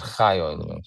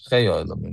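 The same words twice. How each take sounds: First: The first word has an 'ah' vowel. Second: The first word has an 'ay' vowel. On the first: The speaker calls it wrong. "not chay olamim" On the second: The speaker calls it right. "which I think is the accepted version"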